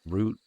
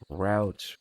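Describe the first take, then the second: First: The vowel sounds like the one in boot. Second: The vowel sounds like the one in out. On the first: "the original French pronunciation" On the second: "the Americanized one"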